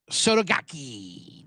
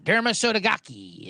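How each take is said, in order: First: Slow drawn-out mock Japanese accent on "Sotogake". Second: Said in the usual way. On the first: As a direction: stretch "Sotogake" out slowly in a put-on Japanese accent. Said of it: "picked up on the accent". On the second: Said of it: "I was just racist accent I was saying".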